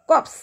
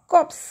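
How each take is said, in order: Both takes have the same delivery.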